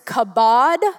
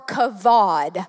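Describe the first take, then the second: First: The middle consonant is a B sound. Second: The middle consonant is a V sound. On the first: "one with a B" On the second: "one with a V, as in victory"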